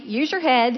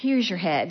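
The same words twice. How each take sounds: First: It is said in a light, friendly tone. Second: It is said in a resigned, weary tone. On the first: "the fairly friendly" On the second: "had this undercurrent, I know now, of resignation"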